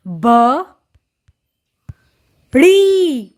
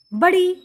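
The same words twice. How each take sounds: First: ब, then ड़ी, drawn out with a gap between; syllable by syllable. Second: Said in the usual way. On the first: Shown as a demonstration. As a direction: sound out ब and ड़ी separately, louder on ड़ी. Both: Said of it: "जोड़कर पढ़ेंगे".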